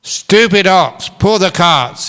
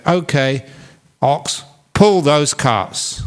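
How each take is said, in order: First: High, loud, slow angry shout; shouted order. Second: Slow, deliberate command to the ox; slow firm order. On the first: Farmer shouts at the ox that won't move. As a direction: yell it at the stubborn ox. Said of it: "he shouted". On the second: Farmer slowly orders his ox to pull. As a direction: spell it out slowly to the ox. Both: Acted.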